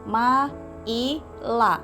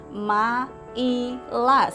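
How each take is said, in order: Both takes have the same delivery.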